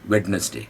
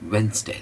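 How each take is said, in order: First: The d is sounded, giving three syllables. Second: The d is silent, giving two syllables. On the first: The speaker calls it wrong. "बहुत ही गलत ... ये ड तो पहली बात आप बोलोगे नहीं" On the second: The speaker calls it right. "होठों को गोल करना है और दो ही टुकड़ों में बोलना है"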